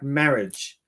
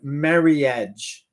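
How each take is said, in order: First: The middle i vowel is not pronounced. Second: The middle i vowel is clearly pronounced. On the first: This is how native English speakers say it. "we would say something like marriage" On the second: This is how Japanese speakers say it. "They go marriage. That I is in there"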